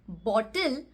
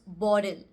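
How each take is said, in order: First: The middle consonant is a clear T. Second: The middle consonant sounds like a D. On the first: "In this word bottle, the T sound would change into a D sound" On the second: "the T sound would change into a D sound"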